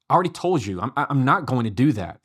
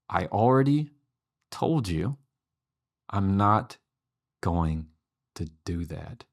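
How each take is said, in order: First: It is said fast and loudly, like yelling. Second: It is said slowly and calmly.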